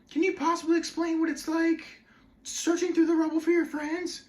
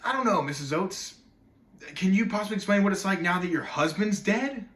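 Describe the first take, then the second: First: Mock-meaningful interviewer, very high monotone; high-pitched, overly meaningful TV questioning; Katie Couric. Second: Loud, pointed comeback, pitch lifting at the end; sarcastic counter-question, a bit higher; biting retort. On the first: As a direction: parody an earnest TV interviewer in a high, level voice. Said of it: "being, like, all meaningful". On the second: Acted. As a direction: throw the question back at the interviewer. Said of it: "I wanted him so bad to say".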